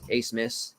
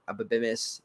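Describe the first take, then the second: First: The name begins with the sound 'ace'. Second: The name does not begin with 'ace'. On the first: The speaker calls it right. "that's how you say it" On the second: The speaker calls it wrong. "not Ababimis"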